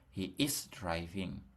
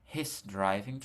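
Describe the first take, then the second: First: He is is said as two full words. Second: He is is contracted into one syllable.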